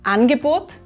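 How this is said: The first vowel is a clear a sound. "das A"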